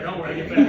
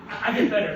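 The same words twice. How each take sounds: First: Chuckling, louder; sheepish laughing promise; laughing reassurance. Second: Said in the usual way. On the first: Real, not acted.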